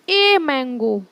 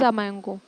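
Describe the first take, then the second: First: The article is pronounced as a full 'ay'. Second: The article is pronounced as a short 'uh'. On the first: The thing is being emphasized. "ए का use तब होता है जब हम किसी चीज को इम्फेसाइज करते हैं।" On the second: It is a plain, ordinary statement. "वैसे सिंपली जब बोलना हो"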